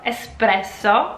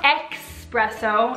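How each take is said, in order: First: The word begins with an 'es' sound. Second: The word begins with an 'ex' sound. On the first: The speaker calls it right. "So none of this X business" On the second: The speaker calls it wrong. "it's not espresso"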